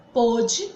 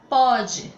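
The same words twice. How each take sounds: First: Pôde with a closed o, stressed; pôde com o fechado. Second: Pode with an open o, stressed. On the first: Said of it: "com acento". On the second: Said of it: "sem acento". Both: Shown as a demonstration.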